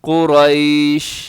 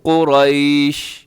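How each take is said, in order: First: The word stops cleanly on the 'sh' sound. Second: The word stops cleanly on the 'sh' sound.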